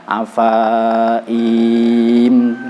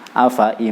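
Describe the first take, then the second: First: Both the fa and i vowels are drawn out. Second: Both the fa and i vowels are short. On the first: The speaker calls it wrong. "jangan dibaca afaim salah dua kali" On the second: The speaker calls it right. "Cukup pendek semua, fa-nya pendek, i-nya juga pendek"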